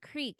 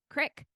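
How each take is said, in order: First: The vowel is a long 'ee' sound. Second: The vowel is a short 'i' sound. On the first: "It's a not creek" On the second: "how do they in Pennsylvania? ... It's like a crick"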